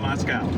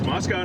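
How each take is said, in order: First: The last syllable ends with an 'ow' sound. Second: The last syllable ends with an 'oh' sound. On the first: It names the city across the ocean. The speaker calls it wrong. "not Moscow. Because that's the one across the pond" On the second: It names the local town. The speaker calls it right. "It's Moscow"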